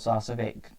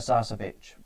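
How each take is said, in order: First: The name ends with an 'ick' sound. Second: The name ends with an 'itch' sound. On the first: This is how the player's name is really pronounced. The speaker calls it right. "that's how you pronounce it" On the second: This is the speaker's preferred way to say the name. The speaker calls it wrong. "I prefer Sarcevic"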